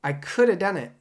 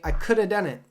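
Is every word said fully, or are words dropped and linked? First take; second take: linked; linked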